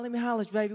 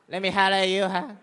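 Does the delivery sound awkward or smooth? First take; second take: smooth; awkward. First: It is said in a smooth, confident voice. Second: It is said in a stiff, awkward voice.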